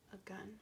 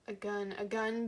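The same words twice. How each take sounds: First: Hushed realization. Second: Full-voiced, insistent repetition; mounting agitation. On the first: Narrator realizing the sound was a weapon, hushed. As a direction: let the realization land almost under your breath. Dawning realization in dramatic reading. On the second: Narrator reacting to a gun in the valley, agitated. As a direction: repeat it with rising dramatic urgency. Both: A narrator's reading.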